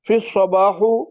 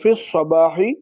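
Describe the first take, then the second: First: The word ends in an u vowel. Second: The word ends in an i vowel. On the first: The speaker calls it wrong. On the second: The speaker calls it right.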